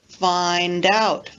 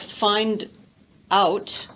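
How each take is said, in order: First: The d runs straight onto the next word. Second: The d stays with the first word, separately. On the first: The speaker calls it right. "linking the final consonant to the vowel sound of the next word" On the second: The speaker calls it wrong. "instead of find out"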